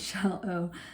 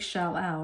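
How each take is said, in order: First: The last syllable has the long 'o' as in go. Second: The last syllable has the 'ow' sound as in cow. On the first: The speaker calls it right. "it's shall o" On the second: The speaker calls it wrong. "It doesn't make shall ow"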